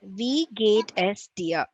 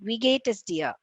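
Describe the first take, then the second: First: The phrase is spoken slowly. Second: The phrase is spoken quickly. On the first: "read it once" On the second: "The third speed"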